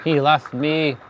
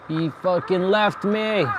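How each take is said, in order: First: Said in the usual way. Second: Slower, higher, indignant disbelief. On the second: Real, not acted. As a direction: stretch it out in betrayed shock. Teammate abandoned them.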